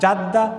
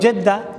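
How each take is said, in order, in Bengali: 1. প্রথম স্বরধ্বনিটি a ধ্বনি। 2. প্রথম স্বরধ্বনিটি e ধ্বনি। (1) "তিনোটা সহি" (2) "আমরা বলি জেদ্দা"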